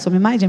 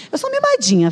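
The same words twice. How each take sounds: First: Said in the usual way. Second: High-pitched playful admission; playful confession. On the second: Pretend. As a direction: own up in a high, spoiled little lilt. Playfully admits being spoiled.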